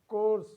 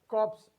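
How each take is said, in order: First: The P sound is left out of the word. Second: The P sound is pronounced in the word. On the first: The speaker calls it right. "it is course" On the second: The speaker calls it wrong. "It is not pronounced as corpse"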